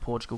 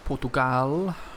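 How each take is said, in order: First: The name is said in the standard way. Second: The name is said in a silly, distorted way. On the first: The speaker calls it right. "I know it's pronounced Portugal" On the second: The speaker calls it wrong. "Just me being silly"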